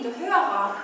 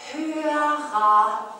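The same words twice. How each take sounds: First: Said in the usual way. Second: Hörer said loud and drawn out as a clue; stressed word. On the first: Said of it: "wir haben früher den Sache Namen gegeben". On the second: Shown as a demonstration. Telling the boy to think, giving Hörer with heavy stress. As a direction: lean hard on Hörer so the boy gets it. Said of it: "Und jetzt überlege mal kurz".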